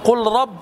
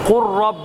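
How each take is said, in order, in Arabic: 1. تُنطق اللام بوضوح قبل الراء. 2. تُدغم اللام تمامًا في الراء التي بعدها. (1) "لا تقل" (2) "فنقول"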